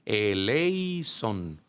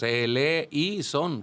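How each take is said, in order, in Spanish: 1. La palabra se dice en tres sílabas. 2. La palabra se divide en cuatro sílabas. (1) "y no es eleison" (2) "como si fueran cuatro sílabas"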